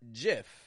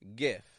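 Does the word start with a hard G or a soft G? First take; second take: soft G; hard G. First: It starts with a soft G sound. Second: It starts with a hard G sound. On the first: The speaker calls it wrong. "not GIF" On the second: The speaker calls it right. "just a regular G consonant for that G kind of sound"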